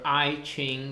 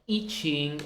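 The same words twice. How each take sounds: First: It is pronounced in an English way. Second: It is pronounced in a non-English way.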